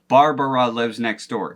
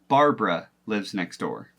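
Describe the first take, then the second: First: Barbara is said with three full syllables. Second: Barbara is said with the middle vowel dropped. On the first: The speaker calls it wrong. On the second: The speaker calls it right.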